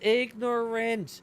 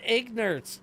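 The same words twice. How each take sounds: First: The word is said with all its syllables. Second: The word is shortened, with a syllable dropped. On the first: The speaker calls it right. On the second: The speaker calls it wrong. "It's not"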